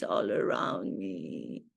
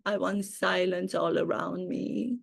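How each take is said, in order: First: Dropped far down into a deep, low voice; much lower repeat. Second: Said in the usual way. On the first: Shown as a demonstration. A deep dramatic repeat of the silence wish. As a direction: sink the line way low like an echo.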